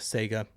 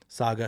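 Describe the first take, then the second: First: The word sounds like 'Sega', with an 'ay' vowel. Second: The first vowel is an open 'ah' sound. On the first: The speaker calls it wrong. "not Sega. Sega's the game thing" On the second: The speaker calls it right. "I was saying it right"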